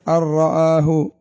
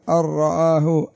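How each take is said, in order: Both takes have the same delivery.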